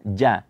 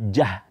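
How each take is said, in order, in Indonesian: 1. Tidak ada udara keluar yang terdengar bersama bunyinya. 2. Ada udara keluar yang terdengar bersama bunyinya. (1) "ja itu tidak ada keluar anginnya" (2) "Tidak ada jah"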